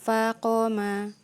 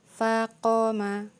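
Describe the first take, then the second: Both takes have the same delivery.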